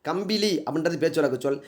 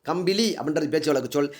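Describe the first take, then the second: The two takes are said the same way.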